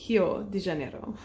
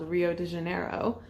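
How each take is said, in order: First: The R sounds like an English H. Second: The R sounds like an English R.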